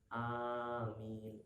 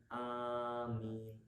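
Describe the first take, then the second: No difference in how they are said.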